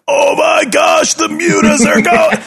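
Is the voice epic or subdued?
epic. It is said in a big, epic voice.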